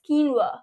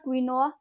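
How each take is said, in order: First: The word does not sound like 'queen noa'. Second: The word sounds like 'queen noa'. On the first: The speaker calls it right. "It is quinoa" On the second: The speaker calls it wrong. "It is not queen and noa"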